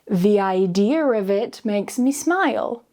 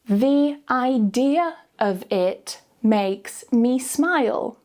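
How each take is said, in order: First: It is said naturally, sounds joined smoothly. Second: It is said very slowly, word by word. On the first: "then naturally joining the sounds together smoothly with the intrusive R" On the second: "Say each sentence very slowly first"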